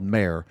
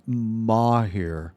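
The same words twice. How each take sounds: First: "Mare" in one syllable with an American r; American pronunciation. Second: "Mahir" as a careful, slow mah-HEER; attempted foreign pronunciation. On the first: American friend defends their version, "Mare" rhyming with bear. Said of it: "over here in America". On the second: Friend tries copying the foreign name, "Mahir" as mah-HEER. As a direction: sound out "Mahir" in two syllables, unsure of it. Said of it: "can't even pronounce what you just said". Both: Shown as a demonstration.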